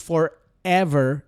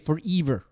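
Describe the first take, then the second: First: The vowels sound like standard English. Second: The e vowel is said like i. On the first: The speaker calls it right. "instead of saying forever" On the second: The speaker calls it wrong. "they would say forever"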